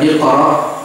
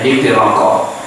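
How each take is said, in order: First: The word ends cleanly on its final vowel. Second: The word gains an extra syllable at the end. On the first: The speaker calls it right. "Aturan Iqra" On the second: The speaker calls it wrong. "kena juga dialek Jawanya"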